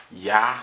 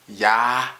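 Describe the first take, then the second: First: Said in the usual way. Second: "ya" with a long, leaned-on ah; stress on the ah. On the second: Shown as a demonstration. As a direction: hit the ah in "ya" hard. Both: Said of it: "Put some emphasizing on the ah".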